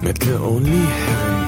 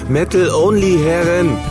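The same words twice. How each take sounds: First: It is said quietly. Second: It is said loudly.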